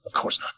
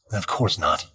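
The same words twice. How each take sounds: First: "Of course not" repeated much softer, almost to himself; a quiet echo of "Of course not" to himself. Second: Said in the usual way. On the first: Acted. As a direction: say "Of course not" again, dropping to a near murmur.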